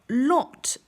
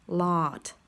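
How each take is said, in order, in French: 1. Il a une voyelle britannique courte et arrondie. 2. Il a une voyelle américaine plus longue et plus ouverte. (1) "en R P, vous allez avoir lot" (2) "en General American, vous allez avoir lot"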